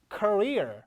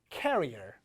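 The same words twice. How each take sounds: First: Career as kuh-REER; stress on second syllable. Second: Career said as carrier, KA-ree-er; stress on first syllable. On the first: Teacher contrasting two words for students, Career as kuh-REER. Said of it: "강세 위치가 중요합니다". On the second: Teacher contrasting two words, career said as KA-ree-er. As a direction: lead career on KA, falling lower. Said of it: "이거를 얘 뒤처럼". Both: Shown as a demonstration.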